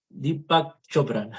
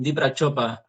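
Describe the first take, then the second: First: "Deepak Chopra" sounded out slowly as "Di-pak Chopra"; careful self-correction. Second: "Deepak Chopra" garbled as "Dipra Chopa"; botched name pronunciation. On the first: Speaker fixing a guru's name that won't come out, slow careful "Deepak Chopra". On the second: Speaker trying to name a guru, "Deepak Chopra" misspoken as "Dipra Chopa". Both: Real, not acted. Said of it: "no me sale".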